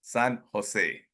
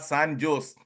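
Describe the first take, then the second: First: San Jose said san ho-say, J as H; Spanish San Jose. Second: San Jose with J sound, san jose; wrong San Jose. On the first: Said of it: "It is". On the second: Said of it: "It is not". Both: Shown as a demonstration.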